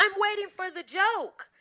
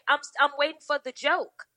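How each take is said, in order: First: Pointed deadpan repeat. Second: Deadpan challenge. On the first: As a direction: lean on it, sarcastic and cold. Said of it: "I said". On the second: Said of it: "And I said". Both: Retold or imitated.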